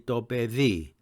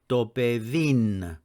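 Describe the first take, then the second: First: The word ends on a vowel. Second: The word ends with an n sound. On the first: This is the standard modern Greek form. "in standard modern Greek it will be dobevi" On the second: This is the Cypriot Greek form. "they would say dobevin"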